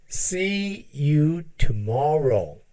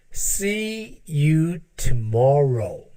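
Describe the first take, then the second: No difference in how they are said.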